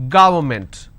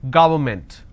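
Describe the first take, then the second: The two takes are said the same way.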